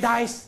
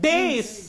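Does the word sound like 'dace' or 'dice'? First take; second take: dice; dace. First: The word is pronounced to sound like 'dice'. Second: The word is pronounced to sound like 'dace'. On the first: The speaker calls it wrong. "People say dice. That is not the dace" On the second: The speaker calls it right. "Correct word"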